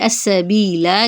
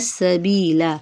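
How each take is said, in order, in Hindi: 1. अंतिम स्वर को लंबा खींचा जाता है। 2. अंतिम स्वर को छोटा रखा जाता है। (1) "की जगह" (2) "हरकत को लंबा नहीं करेंगे"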